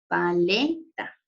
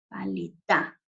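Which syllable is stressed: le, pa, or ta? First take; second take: le; ta. First: The stress is on the second syllable. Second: The stress is on the last syllable. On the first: "Hagamos mayor fuerza de voz en la sílaba le" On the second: "Hagamos mayor fuerza de voz en la sílaba ta"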